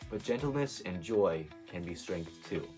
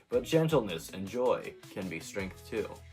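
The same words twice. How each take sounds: First: It is said in a sincere tone. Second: It is said in a sarcastic tone.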